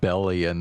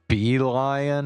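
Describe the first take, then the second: First: The name sounds like "Bellion". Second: The name sounds like "Beeline". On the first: The speaker calls it wrong. "I've been pronouncing it Bellion this whole time" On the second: The speaker calls it right. "It's pronounced Beeline?"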